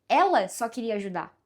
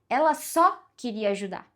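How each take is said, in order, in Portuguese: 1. A palavra ela recebe a ênfase. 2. A palavra ajudar recebe a ênfase. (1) "eu tô dizendo que é ela" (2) "era só isso que ela queria fazer, só ajudar"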